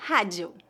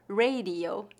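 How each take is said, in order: First: "Rádio" as HA-jee-oo, lower; Portuguese pronunciation. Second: "radio" in English, RAY-dee-oh; English pronunciation. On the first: Teacher answering how it is said in Portuguese, Portuguese pronunciation. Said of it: "como a letra H do inglês". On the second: Teacher asking for the Portuguese of an English word, English pronunciation. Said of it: "Como se pronuncia a palavra". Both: Shown as a demonstration.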